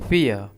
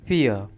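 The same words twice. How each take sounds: The two takes are said the same way.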